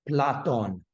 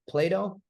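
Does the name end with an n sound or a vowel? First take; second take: n sound; vowel. First: The name ends with a final n sound. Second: The name ends in a vowel, no final n. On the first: This is the original Greek form. The speaker calls it right. "There's an N at the end of it" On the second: This is the later, shortened form. The speaker calls it wrong. "that's not how you say that in Greek"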